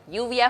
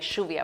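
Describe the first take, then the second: First: The double L has its usual soft sound. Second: The double L sounds like a sh sound. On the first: "for you" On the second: "the double L, for example, we pronounce like shh"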